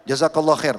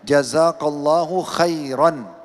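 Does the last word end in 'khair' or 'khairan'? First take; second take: khair; khairan. First: The last word ends without the 'an' sound. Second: The last word ends with an added 'an' sound. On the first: The speaker calls it wrong. "Tidak ada an-nya" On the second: The speaker calls it right. "Tolong digarisbawahi an-nya ya"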